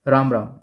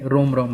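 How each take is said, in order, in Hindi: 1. अभिवादन एक खुले 'aa' स्वर के साथ बोला जाता है। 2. अभिवादन एक गोल 'o' स्वर के साथ बोला जाता है।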